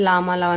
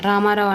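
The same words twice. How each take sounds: First: లామాలావు with each r turned l. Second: Said in the usual way. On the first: Shown as a demonstration. Teacher quoting small children's error, లామాలావు with l for r. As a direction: replace both r sounds with l in లామాలావు. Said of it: "ఇది చిన్నపిల్లల్లో ఎక్కువగా". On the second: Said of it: "అని పలకమంటే".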